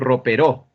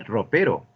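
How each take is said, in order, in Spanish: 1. La tónica está en la primera sílaba. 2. La tónica está en la segunda sílaba. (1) "Pero si así no se habla" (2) "se dice ropero"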